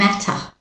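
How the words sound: It is said in a British-Australian accent. "Australian British pronunciation"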